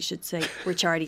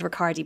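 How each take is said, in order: First: The c sound in the middle is long. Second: The c sound in the middle is short. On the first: The speaker calls it right. "I should say Ricciardi" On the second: The speaker calls it wrong. "I would have said Ricciardi"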